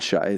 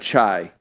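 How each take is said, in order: First: The name starts with an 'sh' sound. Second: The name starts with a 'ch' sound. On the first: The speaker calls it wrong. "not shy" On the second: The speaker calls it right. "he said chai"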